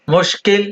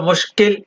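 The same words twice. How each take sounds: The two takes are said the same way.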